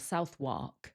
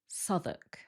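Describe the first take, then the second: First: The W sound is pronounced. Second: The W sound is left out. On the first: The speaker calls it wrong. "it doesn't sound like Southwark" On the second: The speaker calls it right. "This one has a silent W"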